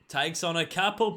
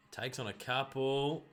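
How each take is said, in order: First: Louder mock commentator call, rising on couple; play-by-play call lifting on couple; excited call. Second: Said in the usual way. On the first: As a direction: punch couple like a TV caller.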